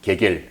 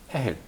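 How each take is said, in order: First: The name begins with a hard G sound. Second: The name begins with a breathy H sound. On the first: This is the Russian pronunciation. "러시아 말로는" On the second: This is the Ukrainian pronunciation. "우크라이나 말로는"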